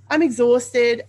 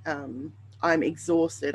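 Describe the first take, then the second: First: Higher and louder, stress on I'm; pushing I'm up hard; emphatic. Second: Said in the usual way. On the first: Real, not acted. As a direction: punch it to insist how tired.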